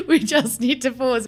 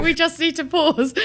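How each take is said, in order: First: Laughing through the words; giggling, can't stop laughing. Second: Laughing. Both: Real, not acted. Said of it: "I'm literally crying".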